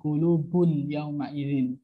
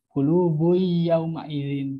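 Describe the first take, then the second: First: The n sound is clearly pronounced before y. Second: The n sound merges into the following y. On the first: The speaker calls it wrong. "bukan kulubun yauma izin" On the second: The speaker calls it right.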